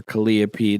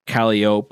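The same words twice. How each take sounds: First: "Calliope" with a sounded final pee; "Calliope" stressed on the second syllable, ending -pee; Calliope as kuh-LIE-uh-pee. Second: "Calliope" ending in -ope, silent final e; "Calliope" stressed up front, ending like rope; Calliope as KAL-ee-ope. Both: Shown as a demonstration. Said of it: "depending on how you wanna pronounce it".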